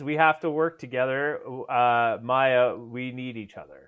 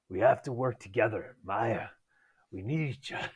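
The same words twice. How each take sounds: First: It is read in the reader's normal voice. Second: It is read in a put-on character voice.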